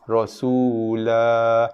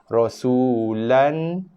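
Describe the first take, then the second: First: The word ends with a long a vowel. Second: The word ends with an n sound. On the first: The recitation stops on this word. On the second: The recitation continues without stopping.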